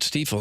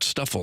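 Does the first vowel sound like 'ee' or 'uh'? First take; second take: ee; uh. First: The first vowel sounds like 'ee'. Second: The first vowel sounds like 'uh'. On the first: The speaker calls it right. "hopefully you're pronouncing it right" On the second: The speaker calls it wrong. "not Stuffle or something else"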